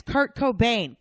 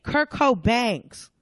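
First: Higher "[name]", ending like "bane"; singer's name, [name]. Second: Slow, loud "[name]'s" said co-BANGS; rapper's name, [name]. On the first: Clerk correcting the customer, firm "[name]" like bane. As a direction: firmly answer "[name]", rhyming with rain. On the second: Customer insisting on the rapper, slow "[name]'s" as co-BANGS. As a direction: drag out "[name]'s" to rhyme with fangs. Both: Pretend. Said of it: "musical version of Who's on First".

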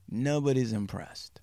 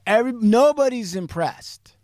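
First: Soft, dropped-down echo; quiet deadpan repeat. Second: High, loud, emphatic verdict. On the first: Storyteller repeating the team's doubt, quiet and deadpan. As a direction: say it softer, as a letdown. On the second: Storyteller stressing the team's doubt, loud and emphatic. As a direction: punch it up high on NOBODY'S. Emphatic first take, then quiet repeat. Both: Real, not acted.

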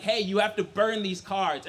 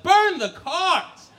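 First: Said in the usual way. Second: Slow, high, loud cry; horrified disbelief. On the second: Acted. Son hearing he must burn his cards, horrified disbelief. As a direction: drag the words out in horror.

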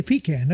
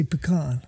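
First: Pecan said as PEE-can; everyday pronunciation. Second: Pecan said as puh-KAHN; impressive pronunciation. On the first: Co-host repeating his usual way, pecan as PEE-can. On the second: Co-host showing how he impresses somebody, pecan as puh-KAHN. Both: Shown as a demonstration. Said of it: "unless I wanna impress somebody".

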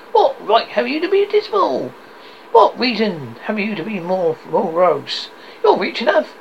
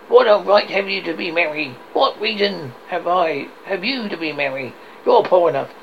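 First: High, lively teasing comeback; cheerful nephew's retort. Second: Lightly voiced grumpy challenge; grumbling Scrooge. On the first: Acted. Nephew turns Scrooge's words on him, cheerful retort. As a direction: throw the question back, pitched up. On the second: Scrooge scolds his poor nephew, mildly grumpy challenge. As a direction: challenge him with a touch of scorn.

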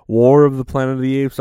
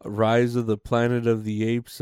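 First: Louder, quicker self-correction of the title "War"; loud fast fix of the wrong title. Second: Said in the usual way. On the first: Real, not acted. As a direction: blurt out the right title "War of the Planet of the Apes".

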